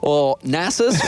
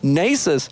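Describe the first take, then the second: First: The name is said the European way. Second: The name is said the American way.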